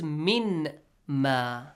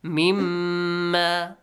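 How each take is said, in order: First: "min ma" slowly as two words, with a clear n; separated words. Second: "Mimma" as one word with a long nasal mm; merged words. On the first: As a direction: split "min ma" with a pause after the noon. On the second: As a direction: hold the doubled meem in "Mimma". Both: Shown as a demonstration. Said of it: "They are merged".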